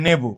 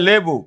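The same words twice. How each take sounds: First: নেবু starting with n, for lebu; initial n variant. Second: লেবু starting with a clear l; initial l pronunciation. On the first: Teacher showing the same thing's variant, নেবু with initial n. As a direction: say নেবু as "nebu". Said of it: "আবার কেউ বলে". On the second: Teacher showing students one pronunciation, লেবু with initial l. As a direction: say লেবু as "lebu". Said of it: "শুধু আওয়াজের পরিবর্তন হয়েছে". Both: Shown as a demonstration.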